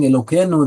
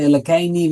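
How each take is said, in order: First: Said in the usual way. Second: "Elokeini" with the Ashkenazi ending -ei-ni instead of -ei-nu; Ashkenazi pronunciation. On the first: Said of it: "instead of saying Elokeinu". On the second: Shown as a demonstration. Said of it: "that's how they say".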